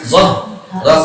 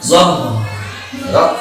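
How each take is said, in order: First: The sound stops between the two syllables. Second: The sound keeps flowing between the two syllables. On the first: The speaker calls it wrong. "Jangan putus. ... enggak boleh" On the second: The speaker calls it right. "kalau di slow motion ... hanya masih ngalir"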